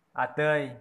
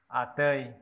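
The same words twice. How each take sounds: The two takes are said the same way.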